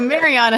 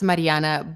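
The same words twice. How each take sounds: First: The name is said with an English pronunciation. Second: The name is said with a Russian pronunciation. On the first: "So Mariana is just fine" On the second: "in Russian. It's Mariana"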